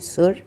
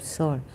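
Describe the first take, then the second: First: The vowel is said like 'oo' in 'sure'. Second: The vowel is said like 'o' in 'sore'. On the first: The speaker calls it wrong. "we don't say Sur" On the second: The speaker calls it right. "We pronounce it Sor"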